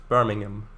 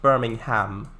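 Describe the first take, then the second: First: It is said in the British way. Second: It is said in the American way. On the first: "the original British version is pronounced Birmingham" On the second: "the American version of it, which is pronounced Birmingham"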